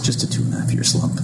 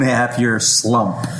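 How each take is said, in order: First: The words are said quietly. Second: The words are said loudly. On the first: The speaker calls it wrong. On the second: The speaker calls it right.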